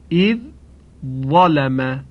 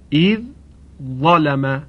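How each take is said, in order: The two takes are said the same way.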